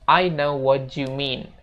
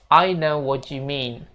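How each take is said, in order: The two takes are said the same way.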